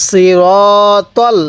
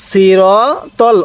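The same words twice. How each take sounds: The two takes are said the same way.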